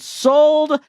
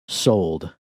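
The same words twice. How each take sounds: First: The word is said loudly. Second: The word is said quietly.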